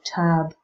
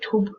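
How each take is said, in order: First: The vowel is central, in an American accent. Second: The vowel is in a Northern English accent. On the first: "in American English you'll have something a bit more central like tub" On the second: "If you're from the north of England you might say tub"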